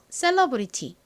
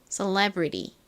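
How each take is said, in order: First: It is said with a Korean-style accent. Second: It is said with an American accent. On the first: "한국식 발음 celebrity로 먼저 한번 따라해 보세요" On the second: "미국식 원어 발음도 연습하고 싶으신 분들은 따라해 보세요"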